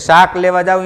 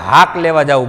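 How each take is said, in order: First: The first word starts with an s sound. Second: The first word starts with an h sound.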